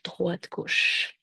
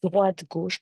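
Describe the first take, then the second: First: Droite, gauche whispered softly; hushed droite gauche; whispered count. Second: Said in the usual way. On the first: Real, not acted. Counting steps in downward dog.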